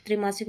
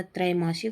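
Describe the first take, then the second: First: त्रिमासिक starting with short tri; short i in the first syllable of त्रिमासिक; wrong pronunciation. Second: त्रैमासिक starting with trai; correct pronunciation. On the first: Teacher showing the error, त्रिमासिक with tri. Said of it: "नहीं होता". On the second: Teacher correcting the word, त्रैमासिक with trai. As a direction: open the first vowel of त्रैमासिक to ai. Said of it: "होता है". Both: Shown as a demonstration.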